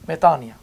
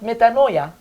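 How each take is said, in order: First: The vowel after 'metan' is said as i. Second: The vowel after 'metan' is said as oi. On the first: The speaker calls it right. "Omicron and iota together will be combined to make an I sound" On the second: The speaker calls it wrong. "Not metanoia"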